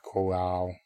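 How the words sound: The word is said in a drawn-out, chewy way. "You just pronounce it very chewy"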